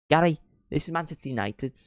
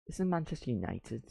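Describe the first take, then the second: First: Put-on light Mancunian accent, higher pitch; pundit stressing "this is Manchester United" in Gary Neville's accent. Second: Put-on softer, half-hearted Gary Neville accent; a quiet second try at the Mancunian accent; Gary Neville accent, retry. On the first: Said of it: "I'm doing the Gary Neville accent". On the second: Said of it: "that was terrible".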